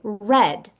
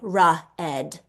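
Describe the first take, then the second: First: The R sound goes straight into the vowel. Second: An extra vowel follows the R sound. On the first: The speaker calls it right. "We say red" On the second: The speaker calls it wrong. "We do not say ra ed"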